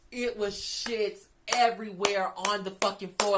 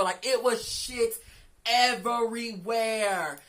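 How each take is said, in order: First: Slow and a bit louder, leaning on "everywhere"; "everywhere" stretched and hit harder; stressed, slowed down. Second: Very slow and louder, "everywhere" stretched long; "everywhere" dragged out slow and loud; drawn-out emphasis. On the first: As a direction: drag out "everywhere" for emphasis. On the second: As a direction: spell out "everywhere" syllable by syllable in disbelief. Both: Real, not acted.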